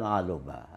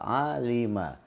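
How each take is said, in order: First: The middle vowel is u. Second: The middle vowel is i. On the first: The speaker calls it wrong. "bukan aluma" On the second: The speaker calls it right. "huruf tengahnya itu kasrah"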